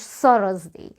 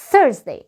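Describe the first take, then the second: First: Thursday with S and open vowels, 'Sarazday'; wrong Thursday. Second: Thursday as 'Thurz-day' in two syllables; correct TH. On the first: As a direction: deliberately botch Thursday as three syllables. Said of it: "أكيد ما اسمهوش". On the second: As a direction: start Thursday with tongue-tip TH, then 'urz'. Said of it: "في الإنجليش بننطقها". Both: Shown as a demonstration.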